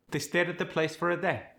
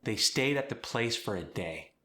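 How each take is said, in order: First: "stayed", "place", "day" with a flat A, no glide, higher voice; flattened A. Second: Said in the usual way. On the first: Shown as a demonstration. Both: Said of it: "the flattened A diphthong".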